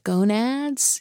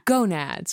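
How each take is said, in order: First: The word is said hesitantly and without conviction. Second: The word is said firmly and with conviction. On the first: The speaker is unsure about the name. The speaker calls it wrong. "I don't know, like gonads" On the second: The speaker is confident about the name. The speaker calls it right. "if you don't say it with conviction, you've lost everybody"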